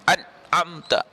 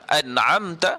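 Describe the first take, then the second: First: The n has no nasal resonance at all. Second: The n has a brief, light nasal resonance. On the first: The speaker calls it wrong. "kalau kita tak bunyi nun itu dengan sifat gunnah pun tak betul juga" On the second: The speaker calls it right. "mesti gunnah ini menggunakan laluan hidung"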